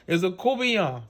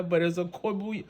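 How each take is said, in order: First: Courtbouillon said "coo-bee-yon", the r and t dropped; local Cajun pronunciation. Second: Court bouillon said as "court boo-yon", the way outsiders say it; outsider pronunciation. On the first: Chef corrects viewers with the Cajun way, "coo-bee-yon". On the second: Chef shows the way outsiders say it, "court bouillon" spelled-out style. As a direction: say court bouillon with the r and the t sounded, as written. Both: Shown as a demonstration.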